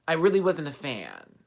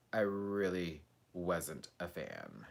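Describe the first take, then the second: First: Said in the usual way. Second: Much softer slow repetition; a fading murmured repeat; soft, slow and low. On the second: Shown as a demonstration. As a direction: let it fade to almost nothing. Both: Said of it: "repeated line fading".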